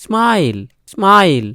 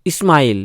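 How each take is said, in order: First: স্মাইল starting straight on the s, "smail"; correct pronunciation. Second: স্মাইল said as "ismail", with a leading i; wrong pronunciation. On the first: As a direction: say স্মাইল with no vowel before the sm cluster. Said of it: "উচ্চারণ হবে". (স্মাইল-এর শুরুতে ই ছাড়া অর্ধ স) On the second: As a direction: put an extra i before স্মাইল. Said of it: "স্মাইল হচ্ছে না কিন্তু". (স্মাইল-কে ভুল করে "ইস্মাইল" বলা) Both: Shown as a demonstration.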